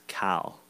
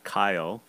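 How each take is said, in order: First: The name is said as one short syllable. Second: The name is drawn out into two syllables. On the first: The speaker calls it right. "it's Cal" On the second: The speaker calls it wrong. "It's not Kyle with two syllables"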